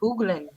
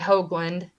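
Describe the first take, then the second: First: The first vowel is said the Dutch way. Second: The first vowel sounds like in 'hoagie'. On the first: This is how it is said where the name comes from. "the correct pronunciation for it would be Hoogland" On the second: This is how the family says it day to day. "I say Hoagland, like Hoagie Hoagland"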